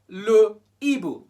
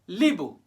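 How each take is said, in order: First: The full article is said separately before the noun. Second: The article is elided and merged into the noun. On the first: The speaker calls it right. "We now say le Ibu. We separate them" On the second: The speaker calls it wrong. "we can't say Libu"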